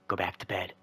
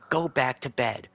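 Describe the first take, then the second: First: It is said in a calm, quiet voice. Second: It is screamed very loudly.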